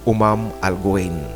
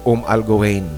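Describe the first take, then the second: First: The first word has two syllables, Umam. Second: The first word is a single syllable, Um. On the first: The speaker calls it right. "Actually, Umam Al Guwain" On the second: The speaker calls it wrong. "Mali yung Um"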